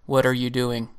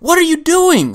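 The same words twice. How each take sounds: First: It is said in a flat monotone. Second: It is said in a frustrated, angry tone. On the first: "I'm going to say this as monotone as possible" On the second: "Like a frustrated, angry thing"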